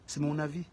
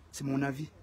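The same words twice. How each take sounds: The two takes are said the same way.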